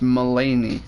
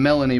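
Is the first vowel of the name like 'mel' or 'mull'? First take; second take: mull; mel. First: The name starts with a 'mull' sound. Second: The name starts with a 'mel' sound. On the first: The speaker calls it right. "It's Mulaney, I think" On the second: The speaker calls it wrong. "I was saying Melanie before"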